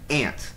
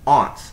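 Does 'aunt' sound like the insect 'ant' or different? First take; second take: like ant; different. First: It sounds the same as ant. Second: The vowel differs from the vowel in ant. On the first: "I say aunt, like the bug" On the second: "Some people say aunt"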